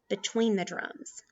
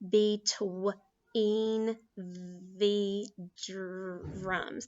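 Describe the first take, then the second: First: It is read smoothly with strong, lively expression. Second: It is read plainly and haltingly, word by word. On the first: The reader is performing it like a storyteller. "read like an actor, read like an actress. That sounds good and strong" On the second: The reader is still figuring the words out. "That might be the first way they say it"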